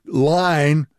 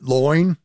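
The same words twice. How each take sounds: First: Said in the usual way. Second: "loin" with an oy vowel for line; "loin", the I vowel pulled back; Ocracoke vowel. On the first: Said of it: "saying something like". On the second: Shown as a demonstration. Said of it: "instead of ... you get".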